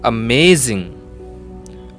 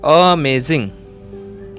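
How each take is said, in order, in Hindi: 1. Stress दूसरे syllable पर है। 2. स्ट्रेस पहले सिलेबल पर है। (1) "सेकंड सिलेबल में स्ट्रेस देते हैं" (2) "फर्स्ट सिलेबल में स्ट्रेस देते हैं"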